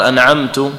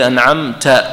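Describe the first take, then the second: First: أنعمت ending in -tu, "an'amtu"; altered final vowel. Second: Said in the usual way. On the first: Shown as a demonstration. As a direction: put a u-vowel on the last t of أنعمت. (أنعمت بضم التاء) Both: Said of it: "لو قال".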